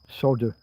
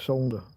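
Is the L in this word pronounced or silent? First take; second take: silent; pronounced. First: The L sound is left out. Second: The L sound is clearly pronounced. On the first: This is the American way of saying it. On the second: This is the British way of saying it.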